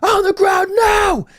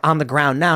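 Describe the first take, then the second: First: High, drawn-out yelled police order; mock police shout, much higher; retold cop shouting. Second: Said in the usual way. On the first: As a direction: yell it slowly like a cop losing patience. Acting cops escalating to yelling.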